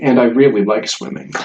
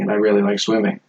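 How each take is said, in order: First: It is said slowly, with strong emphasis. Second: It is said quickly, without special emphasis.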